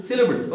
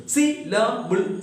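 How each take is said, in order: First: Said in the usual way. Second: "Syllable" slowly broken up as syl-la-ble; three separate syllables. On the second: Shown as a demonstration. Teacher counting three syllables for students, "Syllable" split slowly into three. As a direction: beat out "Syllable" in three slow parts. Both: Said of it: "Three syllables".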